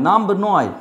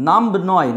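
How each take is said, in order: Both takes have the same delivery.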